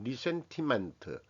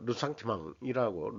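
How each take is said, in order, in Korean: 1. 영어식 발음으로 말합니다. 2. 프랑스식 발음으로 말합니다. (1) "영어식으로 그냥 이 발음 이용 모르고 하면 리센티멘트 이렇게 되는 건데" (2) "르상티망이라고 러상티망 이런 식으로 그 발음이 됩니다"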